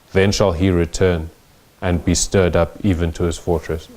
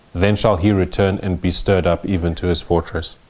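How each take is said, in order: Both takes have the same delivery.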